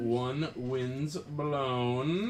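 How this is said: It is said in a sultry, sexy voice.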